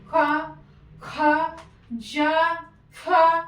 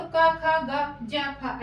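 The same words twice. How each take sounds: First: क़ा, ख़ा, ज़ा, फ़ा with nukta friction; nukta sounds. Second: Said in the usual way. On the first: Shown as a demonstration. Teacher demonstrates nukta letters to the class, extra breath on ख़ा, ज़ा, फ़ा. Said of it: "नुक्ता लग जाता है तो हम इसको बोलते समय". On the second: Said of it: "अगर हम का बोलते हैं तो".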